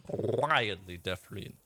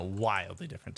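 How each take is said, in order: First: "Wildly" drawn out long, "different" slowed; stress on Wildly. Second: Said in the usual way. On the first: Real, not acted. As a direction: stretch out "Wildly" for comic emphasis. Repeats it for comic emphasis.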